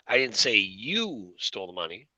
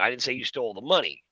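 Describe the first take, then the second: First: The word "you" carries the main stress. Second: The word "money" carries the main stress. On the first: Someone stole the money, but not this person. "now the emphasis is you" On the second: This person stole something other than the money. "I'm saying you stole something, but not the money"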